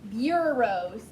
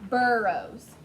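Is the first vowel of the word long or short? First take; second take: long; short. First: The first vowel is long, like 'byoo'. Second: The first vowel is short, like 'bur'. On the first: The speaker calls it wrong. "instead of bureaus" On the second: The speaker calls it right. "you know you're using a short sound"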